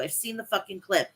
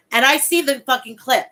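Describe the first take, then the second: First: Said in the usual way. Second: Louder, punching the word see; loud emphatic. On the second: Real, not acted. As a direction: blurt it out, fired up. Excitedly retelling a funny clip.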